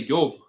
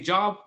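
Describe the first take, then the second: First: The word begins with a Y sound. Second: The word begins with a J sound. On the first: "they'll use like the Y" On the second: "say job"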